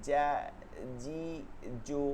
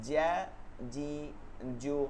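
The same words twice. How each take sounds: No difference in how they are said.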